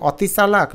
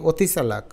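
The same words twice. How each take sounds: First: অতি চালাক starting on open 'aw'; spelling pronunciation. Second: অতি চালাক starting on rounded 'o'; natural pronunciation. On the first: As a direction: say অতি in অতি চালাক as 'aw-ti'. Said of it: "অতি না বলে আমরা". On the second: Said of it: "আমরা এটাকে বলি অতি". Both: Shown as a demonstration.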